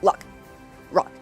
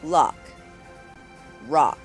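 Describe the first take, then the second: First: The vowels are short and clipped. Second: The vowels are drawn out longer. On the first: The speaker calls it wrong. "They're not" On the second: The speaker calls it right. "have a longer sound"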